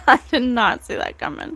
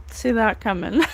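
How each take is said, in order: First: Laughing in disbelief; astonished laughing repeat. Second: Said in the usual way. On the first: Real, not acted. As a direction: say it with an amazed laugh.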